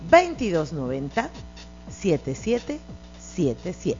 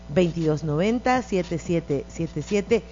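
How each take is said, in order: First: The number is said more slowly. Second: The number is said at normal speed.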